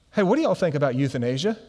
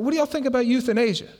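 First: Said in the usual way. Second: High, quick repeated question; imitating a forward friend, high and fast; Skin. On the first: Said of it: "So Todd says to Skin". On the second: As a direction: rattle it off, pitched up. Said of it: "He's like".

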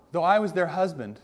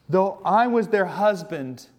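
First: Said in the usual way. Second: "I" in "Though I was their husband," leaned on, slow and weighty; slow solemn reading. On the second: Shown as a demonstration. Preacher quoting God to his congregation, slow and solemn. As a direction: read it slowly, weighing each word.

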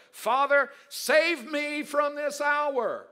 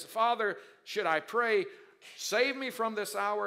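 First: Cried out high, loud and slow; anguished plea. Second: Raised, loud asking; earnest plea. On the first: Jesus begging the Father in anguish, high loud plea. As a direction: plead with the Father, voice straining upward. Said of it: "What shall I pray to my Father". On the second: Jesus questioning the Father before the cross, earnest plea. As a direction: ask the Father, pressing but steadier. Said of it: "Jesus confesses". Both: Acted.

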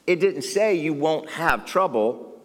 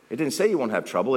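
First: Slow, with say drawn out and falling; emphatic, deliberate sermon point; stress on say. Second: Said in the usual way. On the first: Shown as a demonstration. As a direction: lean hard on say, slowly.

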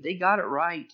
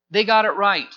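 First: Said in the usual way. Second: GOT hit hard, the whole line louder; emphatic affirmation. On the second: Acted. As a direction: land "got" with force, louder. Preacher affirming the crowd.

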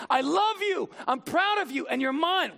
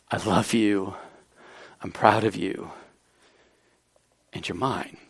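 First: High, ringing declaration of love; much higher, bold fatherly declaration; proclaimed love. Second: Low, hushed and intimate; tender love. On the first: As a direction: lift it up and proclaim it to the whole room. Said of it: "God the Father saying". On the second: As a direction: say it gently, like a father to his child alone. Jesus's love restated intimately. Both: Retold or imitated.

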